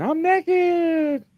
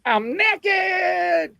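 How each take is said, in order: First: High, panicked mock squeal; high squeak. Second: High, panicked mock squeal; high embarrassed squeak. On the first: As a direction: squeal it high like they heard it. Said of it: "the people on the phone were like". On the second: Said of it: "And I was like".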